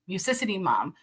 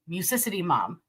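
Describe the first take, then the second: First: The two words are merged into one word. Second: The same.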